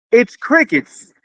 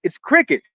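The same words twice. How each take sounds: First: "It's crickets." said higher, slowed and pressed; slow, pointed "It's crickets." on the repeat; emphatic repeat. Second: Said in the usual way. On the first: Shown as a demonstration. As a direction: drag out "It's crickets." for weight.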